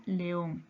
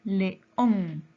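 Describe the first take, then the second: First: Said in the usual way. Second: "León" split in two, ÓN stronger; teacherly syllable break in "León", weight on the last syllable; stress on ÓN. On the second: Shown as a demonstration. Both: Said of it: "Lleva tilde en".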